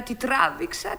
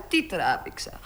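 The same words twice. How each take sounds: First: Τι τράβηξα with the voice rising on τράβηξα; rising complaint. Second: Τι τράβηξα dropped low and soft; sighing echo. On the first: (παράπονο, τι τράβηξα με ανεβασμένο τόνο) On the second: (αναστεναγμός, τι τράβηξα χαμηλά και σιγανά) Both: Acted. Παραπονιέται για το ταξί.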